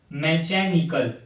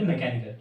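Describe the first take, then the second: First: मैकेनिकल said slowly with "ch" for the k, "me-cha-ni-kal"; wrong pronunciation. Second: Said in the usual way. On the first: Shown as a demonstration. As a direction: sound out मैकेनिकल as "mechanical" with a church-like ch. (मैकेनिकल को धीरे से "मैचेनिकल" बोलते हुए) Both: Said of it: "मैकेनिकल नहीं बोलते".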